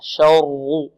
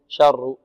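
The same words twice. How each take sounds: First: The r is heavy and not trilled. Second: The r is trilled with several taps. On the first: The speaker calls it right. "الشين مرقة، والراء مفخمة" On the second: The speaker calls it wrong. "لا نقول شر، شر تتكرر"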